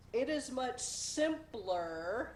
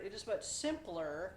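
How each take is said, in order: First: Slow, rising weight on "is"; stress on IS. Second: Weight on "much", normal pace; stress on MUCH. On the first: Showing viewers the word choice, "is" stressed slowly. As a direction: lean on "is", slow and drawn out. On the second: Telling viewers to watch the word, stressing "much". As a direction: hit "much" clearly. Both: Shown as a demonstration. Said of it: "watch the word".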